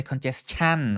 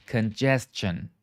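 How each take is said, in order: First: "congestion" ending in a full CHAN; mispronounced ending. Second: "Congestion" slowly, ending in CH-un; CH sound. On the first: Teacher showing a common mistake, "congestion" ending in CHAN. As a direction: say "congestion" as con-jes-CHAN, with an open A. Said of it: "It's not chan". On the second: Teacher repeating for students, "Congestion" with a clear CH sound. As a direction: model "Congestion" as con-JES-chun, lower and slow. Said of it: "say it with the C H sound". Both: Shown as a demonstration.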